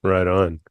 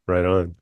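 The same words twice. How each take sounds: The two takes are said the same way.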